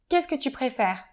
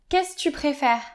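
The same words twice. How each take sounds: First: The word 'que' is said after 'qu'est-ce'. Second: The word 'que' is left out after 'qu'est-ce'.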